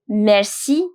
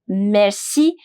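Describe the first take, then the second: No difference in how they are said.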